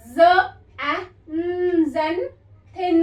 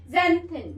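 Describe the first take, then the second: First: ज़, ए, न slowly apart, then ज़ेनथिन in two parts; very slow split ज़ ए न, ज़ेनथिन; word broken into sounds. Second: Said in the usual way. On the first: Shown as a demonstration. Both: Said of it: "break कर करके बता रही हूँ".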